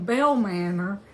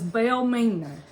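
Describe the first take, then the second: First: "Bell Manor" pronounced the proper way; "Bell Manor" as the family would say it. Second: "Bell Mena" as the official misheard it; "Mena" rhymes with "Gina", not with "manner". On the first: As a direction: say "Bell Manor" clearly, stress on "Bell", the r of "Manor" sounded. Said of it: "the official heard the name Bell Manor". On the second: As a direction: say "Bell Mena" with "Mena" as MEE-nuh and no r. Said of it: "heard the name Bell Manor as Bell Mena". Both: Shown as a demonstration.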